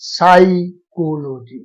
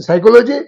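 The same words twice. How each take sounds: First: "साइकोलॉजी" very slowly, broken as sai, ko-lo-ji; slow syllable-by-syllable demo of "साइकोलॉजी"; showing first sound. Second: Said in the usual way. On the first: Shown as a demonstration. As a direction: stretch out the opening "sai" of "साइकोलॉजी". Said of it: "vowel नहीं है". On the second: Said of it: "ये आपका vowel नहीं है".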